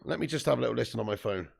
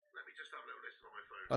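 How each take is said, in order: First: Said in the usual way. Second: Fast, soft whispered repeat. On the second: Real, not acted. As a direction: whisper it to yourself, quickly. Says it, then whispers it.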